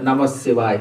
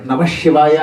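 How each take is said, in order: First: నమ శివాయ with a soft palatal ś, low and quiet; correct pronunciation. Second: శివాయ with a heavy hushing sh; wrong pronunciation. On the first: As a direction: keep the sibilant in శివాయ palatal. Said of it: "అనాలి". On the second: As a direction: thicken the sibilant of శివాయ into a retroflex sh. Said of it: "శని పట్టుకుంటుంది". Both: Shown as a demonstration.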